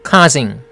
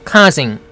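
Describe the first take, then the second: Both takes have the same delivery.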